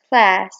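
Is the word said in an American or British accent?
American. The word is said in an American accent. "In American, they say it as class"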